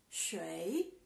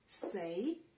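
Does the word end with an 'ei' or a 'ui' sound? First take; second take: ui; ei. First: The word ends with a 'ui' sound. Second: The word ends with an 'ei' sound. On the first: "Este es Shui" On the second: "También puede pronunciar como sei"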